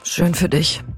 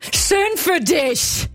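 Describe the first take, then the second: First: It sounds disappointed and deflated. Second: It sounds angry and sharp.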